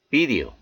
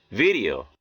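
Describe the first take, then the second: First: 'video' with a full hard D; unflapped D. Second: 'Video' with D as an R-like tap; American flapped D. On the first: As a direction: keep the D in 'video' distinct. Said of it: "이렇게 발음해 틀린 것은 아니". ('video'의 D를 또렷한 ㄷ로) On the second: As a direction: flap the D in 'Video'. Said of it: "연음 현상이 들어가서 이렇게". ('Video'의 D를 ㄹ처럼) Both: Shown as a demonstration.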